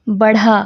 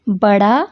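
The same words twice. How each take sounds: First: बढ़ा with an aspirated ढ़. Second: बड़ा with an unaspirated ड़. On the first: Teacher contrasting two words, aspirated ढ़ in बढ़ा. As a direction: breathe through the ढ़ in बढ़ा. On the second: Teacher contrasting two words, unaspirated ड़ in बड़ा. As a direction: keep breath out of the ड़ in बड़ा. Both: Shown as a demonstration. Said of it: "दोनों की आवाज़ में भी फ़र्क".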